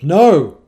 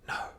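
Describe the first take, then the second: First: The word is said very loud and intense. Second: The word is whispered softly.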